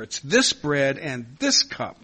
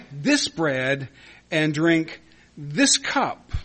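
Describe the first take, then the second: First: "this" punched louder both times, slow delivery; stress on this. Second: "this" lifted and leaned on in "this bread" and "this cup", slow ending; stress on this. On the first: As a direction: drive home each "this" slowly. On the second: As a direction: read the verse hitting each "this". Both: Shown as a demonstration. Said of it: "notice the emphasis on the word "this".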